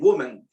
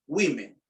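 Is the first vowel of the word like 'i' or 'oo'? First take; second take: oo; i. First: The first vowel sounds like 'oo'. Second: The first vowel sounds like 'i'. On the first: The speaker calls it wrong. "woman, también, woman, dice. No" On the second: The speaker calls it right. "la O se lee como una I"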